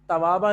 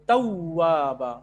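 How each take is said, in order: First: The w sound is short and single. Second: The w sound is held long and doubled. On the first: The speaker calls it wrong. "तवाबा नहीं है" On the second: The speaker calls it right. "बल्कि तव्वाबा"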